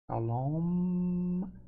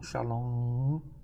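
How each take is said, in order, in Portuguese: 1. A palavra termina com um som de M claramente fechado. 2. A palavra termina em vogal nasal sem M. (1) "também no final o som de M" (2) "Não"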